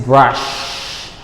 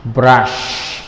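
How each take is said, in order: Both takes have the same delivery.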